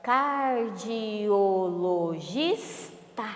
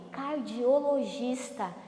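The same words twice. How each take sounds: First: CARDIOLOGISTA drawn out as car-di-o-lo-gis-ta; syllable by syllable. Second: Said in the usual way. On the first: Shown as a demonstration. Teacher has pupils count syllables, "Cardiologista" split very slowly. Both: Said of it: "tem quantas sílabas?".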